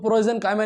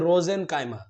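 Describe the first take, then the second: First: The word starts with a p sound. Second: The word starts without a p sound. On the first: The speaker calls it wrong. "इसको प्रोजेनकाइमा नहीं पढ़ना है" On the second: The speaker calls it right. "हाँ यहाँ पी silent है"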